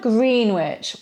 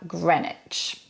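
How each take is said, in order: First: The name is pronounced following its spelling. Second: The name is pronounced unlike its spelling. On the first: The speaker calls it wrong. "we don't have Greenwich" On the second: The speaker calls it right. "we have Greenwich"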